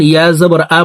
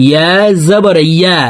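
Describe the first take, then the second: First: ইয়া জবর আ, ending in a bare আ without the y; wrong hamza-like ending. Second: ইয়া with a clear y from mid-tongue; correct ya sound. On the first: Teacher quotes learners' common mistake, a bare hamza আ after ইয়া জবর. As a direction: drop the y glide, end on hamza's আ. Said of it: "হামজার উচ্চারণ করে থাকি". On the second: Teacher corrects the common mistake, ইয়া ending with a mid-tongue y glide. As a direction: end on ইয়া, the y made with the tongue's middle. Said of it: "জিহ্বার মধ্যখান থেকে উচ্চারণ হবে". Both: Shown as a demonstration.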